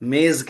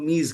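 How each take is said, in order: First: It is said the Urdu way, with an 'e' vowel. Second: It is said the Persian way, with an 'ee' vowel. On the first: This is how Urdu speakers say it. "हम मेज कहते हैं" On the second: This is how native Persian speakers say it. "जिनकी जबान का लफ्ज है वो मीज कहते हैं"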